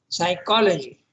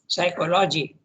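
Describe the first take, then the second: First: The stress is on the second syllable. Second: The stress is not on the second syllable. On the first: The speaker calls it right. "It should be pronounced as psychology. ... the second one is stressed" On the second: The speaker calls it wrong. "should not be pronounced as psychology"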